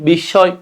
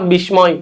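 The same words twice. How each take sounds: First: The m is silent and the s doubled. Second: The m sound is pronounced in the middle. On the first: The speaker calls it right. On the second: The speaker calls it wrong.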